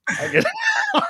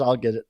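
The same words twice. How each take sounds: First: Much higher, squeaky laugh through the words. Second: Said in the usual way. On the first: Real, not acted. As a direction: crack up on the repeat. Repeats promise in high laugh.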